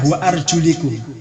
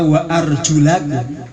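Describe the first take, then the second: First: The vowel after the l is i. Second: The vowel after the l is a. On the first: The feet are joined to the head, so they are wiped. "lamnya di kasrah" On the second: The feet are joined to the face, so they must be washed. "lamnya di fathah"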